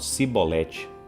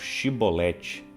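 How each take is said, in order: First: The word begins with a plain s sound. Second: The word begins with an sh sound. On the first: The speaker is from Ephraim. "não conseguiam pronunciar o sh. Então, eles falavam sibolete" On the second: The speaker is from Gilead. "os gileaditas falavam shibolete"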